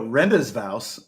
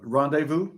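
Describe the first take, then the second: First: "Rendezvous" said slowly as ren-dez-vows, every letter sounded; mocking a bad Indiana reading of "Rendezvous", ren-dez-vows; a slow, puzzled ren-dez-vows for "Rendezvous"; mock mispronunciation. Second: "rendezvous" said the French way, ron-day-voo, with silent s and z; unhurried French "rendezvous", ron-day-voo; French pronunciation. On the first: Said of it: "people would go". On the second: Shown as a demonstration. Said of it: "the French words".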